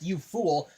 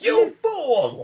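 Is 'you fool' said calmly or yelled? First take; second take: calmly; yelled. First: It is said at a calm, normal loudness. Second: It is yelled loudly with high energy. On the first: "not just" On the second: "gets out of his chair and yells it"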